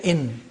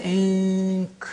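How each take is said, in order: First: "in" with a plain clear n; n from teeth ridge. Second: "ink" with a long ng hum before the k; n hidden before K. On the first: Teacher contrasting English words, "in" with an n from the teeth ridge. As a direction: end "in" with the tongue behind the teeth. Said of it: "pronounced from behind the teeth ridge". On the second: Teacher contrasting with "in", "ink" with a held ng. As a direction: draw out "ink", n made where K is made. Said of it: "from the point of articulation of K". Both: Shown as a demonstration.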